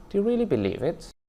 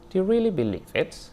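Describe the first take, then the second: First: The rise is low in the speaker's pitch range. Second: The rise is low in the speaker's pitch range.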